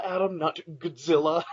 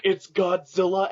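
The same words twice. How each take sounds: First: Godzilla with "God" squashed to "Gud"; mimicked mispronunciation. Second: Godzilla slowly, with a full, higher "God"; correcting pronunciation. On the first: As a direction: mockingly say Godzilla as "Gud-zilla". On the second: Retold or imitated. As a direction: pedantically stretch the "God" in Godzilla. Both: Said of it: "And they're like".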